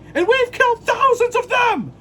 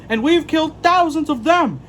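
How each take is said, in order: First: It is said in an aggressive tone. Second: It is said in a calm tone.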